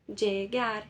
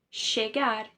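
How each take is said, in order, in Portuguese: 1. O duplo L soa como dj. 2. O duplo L soa como sh. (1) "uma terceira pronúncia possível, né? Que é o som de D J" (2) "Argentina e do Uruguai, esse doble L ... equivale a um C H, a um S H"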